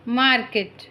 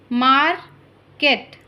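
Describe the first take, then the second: First: Said in the usual way. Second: Slow, drawn-out dictation of market; slow careful model word. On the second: Shown as a demonstration. Teacher modelling market slowly for listening pupils. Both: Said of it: "listen to your teacher say the following words".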